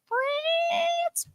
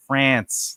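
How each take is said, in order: First: Very high, drawn-out FRANCE; silly squeal. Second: Said in the usual way. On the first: Pretend. Host joking about a mistake, squealed FRANCE. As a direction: squeal "France" in a long falsetto.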